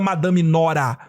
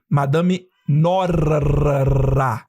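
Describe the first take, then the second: First: The r in the name is a light tap. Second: The r in the name is a strong purr. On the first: The speaker calls it wrong. "Não é Madame Nora" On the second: The speaker calls it right. "Como quem ronrona"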